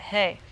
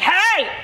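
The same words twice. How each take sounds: First: It is said softly, not shouted. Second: It is shouted loudly.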